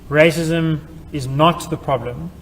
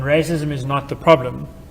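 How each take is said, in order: First: The word not is stressed. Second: No word is given extra stress. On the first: "where the emphasis is on not" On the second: "where no uh, extra sign has been used to place an emphasis"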